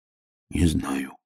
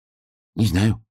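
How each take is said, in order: First: Soft, slow bear cub voice; slow, subdued little bear. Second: Higher-pitched small hedgehog voice; lightly voiced hedgehog; little hedgehog. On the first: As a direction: answer slowly and quietly as a bear cub. Bear cub answers hedgehog. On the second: Hedgehog answers bear in story. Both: A narrator's reading.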